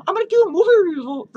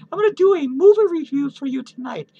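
First: Fast, loud blurted announcement; rushed announcement. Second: Said in the usual way. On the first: Real, not acted. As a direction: rush it out loudly then laugh.

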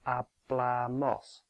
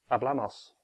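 First: Hablamos said very slowly, with the stress on "bla"; slow stress demo. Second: Hablamos at normal pace, the stress still on "bla"; said at natural speed. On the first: Teacher slowly shows learners the stressed syllable, very slow and deliberate. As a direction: draw out each syllable and lean on "bla" in hablamos. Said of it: "the stress is on the penultimate one". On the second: Teacher shows the stress holds even at normal speed. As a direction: say hablamos quickly but keep the "bla" stress. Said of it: "no matter how quickly you say it". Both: Shown as a demonstration.

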